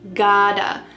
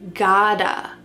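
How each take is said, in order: First: The words blend into one reduced word. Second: The same.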